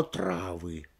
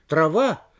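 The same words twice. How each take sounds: First: "травы" stressed on ТРА; stress on first syllable. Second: "Трава" stressed on the final ВА; stress on last syllable. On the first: Lecturer illustrating movable stress, first-syllable "травы". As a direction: lean on ТРА in "травы", voice dropping. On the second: Lecturer illustrating movable stress, end-stressed "Трава". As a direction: hit ВА in "Трава". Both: Shown as a demonstration. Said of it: "Оно может менять своё место".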